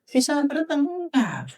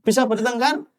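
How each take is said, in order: First: Preacher answering his own question, slow and pointed; drawn-out emphatic answer. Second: Said in the usual way. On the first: Shown as a demonstration. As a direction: answer your own question with a knowing stretch.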